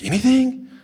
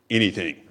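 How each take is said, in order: First: High, rising, disbelieving "Anything?"; amazed question. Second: Said in the usual way. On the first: Retold or imitated. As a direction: ask "Anything?" as if it can't be true. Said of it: "They're like".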